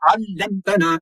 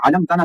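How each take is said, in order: First: अल्लमतना with the L held; अल्लमतना with geminated L and long ending; correct doubled L. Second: अलमतना with a short undoubled L; अलमतना as a-lam-ta-na; wrong single L. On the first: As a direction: lean on the double L, 'al-lam-ta-naa. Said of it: "इस तरीके से पढ़ना है". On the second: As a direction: rush over the L in अलमतना. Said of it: "अलमतना नहीं". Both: Shown as a demonstration.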